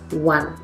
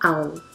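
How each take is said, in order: First: The word begins with a 'wuh' sound. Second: The word begins with a long 'oh' sound. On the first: The speaker calls it right. "It's one" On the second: The speaker calls it wrong. "It's not own"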